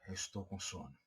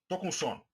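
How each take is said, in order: First: It sounds weary and tired, full of fatigue. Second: It sounds flat and cold, without feeling.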